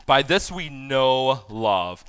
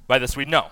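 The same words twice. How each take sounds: First: Slow, deliberate reading of "By this we know love"; slow scripture reading. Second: Said in the usual way. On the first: Shown as a demonstration. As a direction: lay out "By this we know love" word by word, slowly. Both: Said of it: "Okay, stop right there".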